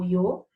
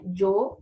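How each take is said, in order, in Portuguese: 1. A palavra começa com um deslize parecido com 'y'. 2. A palavra começa com um som parecido com 'zh'. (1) "ou de I" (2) "som de J"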